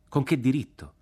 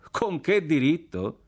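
First: Raised, indignant demand; challenging question. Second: Slow, high, drawn-out echo; scornful echo. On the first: Soldier challenges officer's right to kill, challenging question. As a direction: demand an answer, pitched higher. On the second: Partisan officer repeats the challenge back, scornful echo. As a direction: throw the question back slowly, pitched high. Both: A narrator's reading.

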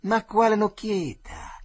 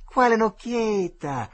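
First: High, loud and slow, jeering; taunting bully's cry; mocking yell. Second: Higher, louder, slower jeering repeat; jeering boy shouting the question again; mocking yell. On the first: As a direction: shout it down at him. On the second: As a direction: hammer the taunt home. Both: A narrator's reading. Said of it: "disse il Tirillo".

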